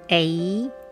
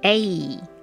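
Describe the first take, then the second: First: The pitch rises at the end. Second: The pitch falls at the end.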